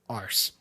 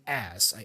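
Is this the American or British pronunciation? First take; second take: British; American. First: It is said in a British pronunciation. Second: It is said in an American pronunciation. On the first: "in British English, there is this variation here for ass" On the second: "if you watch Americans talking, they would likely say ass"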